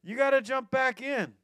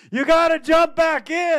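First: Yelled higher and louder; shouted call. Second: Yelled much higher and louder; shouted call. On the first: Friends on the bank insisting, loud shout. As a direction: call out firmly once more. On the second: Friends on the bank shouting to him, urgent yell. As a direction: call out over roaring water. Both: Retold or imitated.

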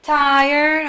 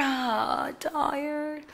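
First: Said in the usual way. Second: Soft, drooping, worn-out sigh of a voice; a teacher miming tiredness for the class, much softer; acting tired. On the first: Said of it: "Are you wonderful?". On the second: Shown as a demonstration. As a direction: let the words sag like you can barely stay awake.

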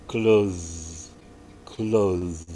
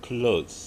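First: "clothes" with a voiced th, said as the verb. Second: "Clothes" said plainly as the noun; the noun "Clothes" in a plain teaching voice; plain model of "Clothes". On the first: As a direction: lean on the buzzing th in "clothes". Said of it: "Kalau kata kerja". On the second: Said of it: "kata benda itu clothes". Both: Shown as a demonstration.

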